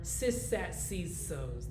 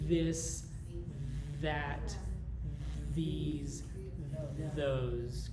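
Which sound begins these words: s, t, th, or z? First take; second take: s; th. First: Each word begins with an s sound. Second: Each word begins with a th sound. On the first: The speaker calls it wrong. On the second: The speaker calls it right. "Your tongue comes out of your mouth"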